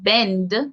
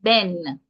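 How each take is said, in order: First: The word ends with a clear d sound. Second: The word ends without any d sound. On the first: This is the standard English pronunciation. "that final D sound that's pronounced in the English" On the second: This is the Jamaican pronunciation. "is not pronounced in the Jamaican um, pronunciation"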